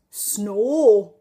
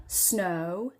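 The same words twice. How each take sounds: First: Drawn-out snore, one long pure "aw" vowel; mocked Geordie snow. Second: Snow with a gliding southern "oh"; daughter's non-Geordie snow. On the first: Daughter's tease of mum's accent, long Geordie snore. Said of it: "Mummy says snore". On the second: Retold or imitated. Mother quoting her teasing daughter, non-Geordie snow. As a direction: say snow slowly, as "snoh-oo". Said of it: "I say snow".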